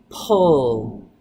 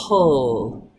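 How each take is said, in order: The two takes are said the same way.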